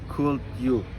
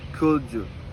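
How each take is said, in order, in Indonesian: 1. Bunyi d dan y tetap terpisah. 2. Bunyi d dan y digabung menjadi bunyi j. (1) "can be observed in the phrase" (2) "often pronunciation"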